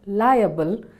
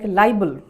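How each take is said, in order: First: The A sound is pronounced. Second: The A sound is dropped. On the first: The speaker calls it right. "which is pronounced liable" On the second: The speaker calls it wrong. "many people forget to pronounce the A"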